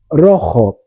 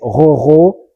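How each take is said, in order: First: It is said with a native Spanish pronunciation. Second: It is said with a French learner's pronunciation. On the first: The speaker calls it right. "j'étais le seul élève français qui pouvait prononcer rojo" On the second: The speaker calls it wrong. "Tous les Français prononçaient roro"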